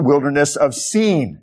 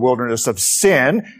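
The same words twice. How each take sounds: First: Sin is said differently from the English word sin. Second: Sin is said like the English word sin. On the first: It names the desert near Sinai. The speaker calls it right. "that's how you should pronounce that" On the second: It means a wilderness of wrongdoing. The speaker calls it wrong. "lest you confuse it with the wilderness of sin"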